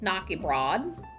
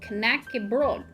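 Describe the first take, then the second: First: The first syllable sounds like 'knock'. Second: The first syllable sounds like 'knack'. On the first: The speaker calls it wrong. "it's not pronounced Knockybroad" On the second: The speaker calls it right. "It's pronounced Knackybroad"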